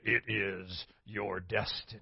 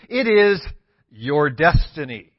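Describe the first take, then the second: First: It is said in a Darth Vader voice. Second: It is said in his normal voice.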